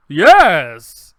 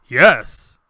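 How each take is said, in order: First: Very loud, over-happy actor's take; hammed-up happy exclamation; happier take. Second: Loud, low, deliberate actor's delivery; big, low voiceover read; voice actor's take. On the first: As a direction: belt it out with mock cheer. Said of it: "a little happier?". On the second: Retold or imitated. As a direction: deliver the one line with full weight. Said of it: "his line is "yes".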